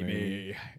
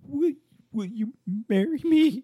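First: The voice is deep and steady. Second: The voice is broken and shaky.

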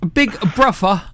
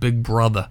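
First: The middle consonant is an 'f' sound. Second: The middle consonant is a 'th' sound.

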